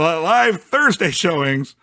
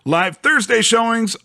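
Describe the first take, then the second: First: Thursday gets heavy, excited emphasis. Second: Thursday gets normal, even emphasis. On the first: The speaker calls it wrong. "a weird emphasis on Thursday" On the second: The speaker calls it right. "not a weird emphasis"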